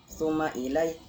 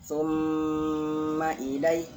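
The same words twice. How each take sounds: First: The m sound is short, without a nasal hold. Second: The m sound is held with a nasal hum. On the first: The speaker calls it wrong. "tidak boleh dibaca" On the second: The speaker calls it right. "Ditahan ya, digunakan"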